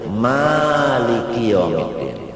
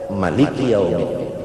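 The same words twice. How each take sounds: First: The first vowel of Maliki is long. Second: The first vowel of Maliki is short. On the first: This follows the Hafs reading. "qiraat Hafs sa'alif" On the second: This follows the Ibnu Katsir reading. "qiraat Ibnu Katsir Maliki yaumiddin kada ba'alif"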